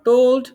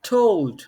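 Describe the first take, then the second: First: The t is not released with the tongue tip. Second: The t is released with the tongue tip. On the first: The speaker calls it wrong. "Not told" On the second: The speaker calls it right. "মানে জিহ্বার আগা দিয়ে সামনেটা ছাড়তে হবে"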